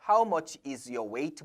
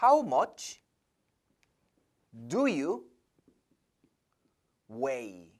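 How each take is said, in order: First: Wrong version, slowly. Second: Slow, spaced-out model sentence; teacher spelling out the better phrasing to students, slow and clear; model answer. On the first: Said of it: "보다는". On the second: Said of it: "동사로 써주는 게 더 좋습니다". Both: Shown as a demonstration.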